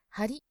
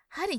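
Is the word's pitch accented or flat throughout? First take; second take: flat; accented. First: The pitch stays flat across the word. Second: The pitch is not flat across the word. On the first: The speaker calls it right. "全体がプレーンってことは" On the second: The speaker calls it wrong. "針じゃなくて"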